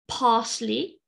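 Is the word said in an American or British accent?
British. It is said in a British English accent. "British English"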